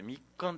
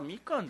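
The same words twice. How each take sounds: First: The k sound is doubled, with a brief hold. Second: The k sound is short, with no pause. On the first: This is the old reading. "みかんって読んでたんですね" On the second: This is the modern reading. "みかんじゃなくて"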